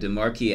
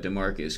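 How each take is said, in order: First: The name is pronounced in a French style. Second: The name is pronounced in an English style. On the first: The speaker calls it wrong. "I was like thinking it would be like the French pronunciation" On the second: The speaker calls it right. "but Demarcus, cool"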